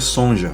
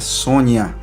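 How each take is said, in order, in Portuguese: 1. A consoante do meio é um som de j. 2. A consoante do meio é um som de nh. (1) "muita gente pronunciava, até hoje pronuncia Sonja" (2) "a pronúncia correta é Sônia"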